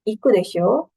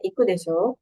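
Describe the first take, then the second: First: The pitch rises at the end on desho. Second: The pitch stays level at the end on desho. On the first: It asks the listener to confirm. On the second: It states a guess about what is likely. "Tapi deshonya nggak naik ya"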